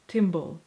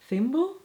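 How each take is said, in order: First: The word begins with a hard t sound. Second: The word begins with a soft th sound. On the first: "or is it tim- timble?" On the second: "Is it thimble"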